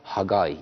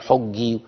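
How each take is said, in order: First: The name ends with an 'eye' sound. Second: The name ends with a short 'ee' sound. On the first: The speaker calls it right. "لكن هو اسمه حجاي" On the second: The speaker calls it wrong. "في ناس بت ممكن تقول عليه حجي"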